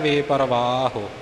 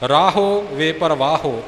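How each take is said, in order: First: The word ends with a light u vowel. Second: The word ends with a full o vowel. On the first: The speaker calls it right. "ਔਂਕੜ ਦਾ ਉਚਾਰਨ ਆਪੇ ਹੀ ਸ਼ੁੱਧ ਹੋ ਜਾਵੇਗਾ" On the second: The speaker calls it wrong. "ਔਂਕੜ ਦਾ ਹੋੜਾ ਨਾ ਬਣ ਜਾਵੇ"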